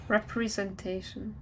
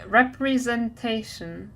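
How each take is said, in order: First: "Representation" softly, starting with a clear "re"; "re" pronunciation. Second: "representation" said slowly, starting "rep" like rep-ri; careful pronunciation. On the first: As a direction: lean on "re" in "Representation", not "rep". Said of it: "I'm focusing on the re instead of rep". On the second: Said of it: "representation is pronounced re". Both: Shown as a demonstration.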